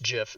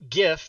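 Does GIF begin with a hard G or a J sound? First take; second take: J sound; hard G. First: The word begins with a J sound. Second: The word begins with a hard G sound. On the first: The speaker calls it right. "It's pronounced GIF" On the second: The speaker calls it wrong. "because graphics stands was a hard G"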